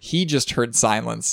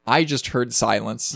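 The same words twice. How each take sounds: First: Slow, with the weight on "He"; stress on HE. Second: Slow, with the weight on "I"; stress on I. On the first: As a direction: lean on "He" as the other side. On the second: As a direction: lean on "I" to set up a contrast. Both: Real, not acted. Contrasts both ends of the call.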